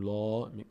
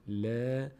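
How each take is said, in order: First: The l is pronounced heavy and full. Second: The l is pronounced light and thin. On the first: The speaker calls it wrong. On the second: The speaker calls it right.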